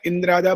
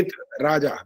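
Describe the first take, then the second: First: An n sound is inserted, joining it as indrājā. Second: No n sound; said as id, then rājā. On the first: The speaker calls it wrong. "इंद्राजा बोलते हैं, वो अशुद्ध है" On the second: The speaker calls it right. "इंद्र है ही नहीं यहाँ पर, इत राजा"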